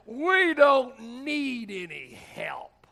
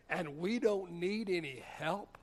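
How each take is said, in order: First: Loud, slow, high mock rebuff; indignant refusal. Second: Slow, quieter questioning echo; incredulous echo. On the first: Alcoholic brother turning down the jail minister, indignantly. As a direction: draw it out, pitched up, waving help away. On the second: Retold or imitated. Jailed man answering his alcoholic brother, incredulous. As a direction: hand the words back slowly as a disbelieving question.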